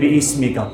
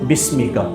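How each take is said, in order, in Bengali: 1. প্রথম স্বরবর্ণটি টেনে দীর্ঘ করে পড়া হয়। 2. প্রথম স্বরবর্ণটি হ্রস্ব রাখা হয়। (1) "অনেকে ভুল বলেন, বলেন যে বিইসমিকা, এই হবে না" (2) "কি হবে? বিসমিকা"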